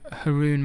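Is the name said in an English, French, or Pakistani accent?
English. The name is said with an English accent. This is the local version in the UK. "In England, I'm [name]. That's the anglicized version"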